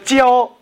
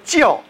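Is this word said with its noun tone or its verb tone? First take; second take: verb; noun. First: It is said with the tone of the verb. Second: It is said with the tone of the noun. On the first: It means teaching. "我们说教是一个动词，叫做teaching" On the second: It means education. "如果我们说教，那是一个名词，叫做education"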